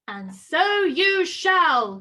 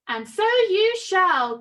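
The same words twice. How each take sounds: First: Big, slow, louder pronouncement. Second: Slow, louder pronouncement; slow magical voice. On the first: The hairy godmother answering Spinderella's wish, slow and loud. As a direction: boom it out like a magic promise. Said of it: "came a loud voice". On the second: The hairy godmother granting the wish again, slow and grand. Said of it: "came a voice". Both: A narrator's reading.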